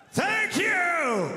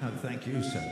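First: Shouted thanks, ringing out; shouting. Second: Said in the usual way. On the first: Real, not acted. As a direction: shout it to the crowd.

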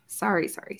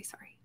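First: Said in the usual way. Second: A tiny whispered apology to herself; whispered sorry under her breath; breathy whispered sorry. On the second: Real, not acted. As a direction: whisper the last sorry almost silently. Apologising for a camera slip.

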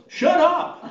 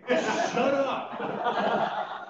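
First: Loud, much higher burst through a laugh; laughing retort. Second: Amused echo. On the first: Retold or imitated. Mother on her deathbed laughingly telling the chaplain to shut up. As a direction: blurt it out like a cheeky old lady. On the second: Real, not acted. Chaplain laughingly echoing the mother's retort. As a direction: repeat the punchline, chuckling. Speaker echoes the punchline, laughing.

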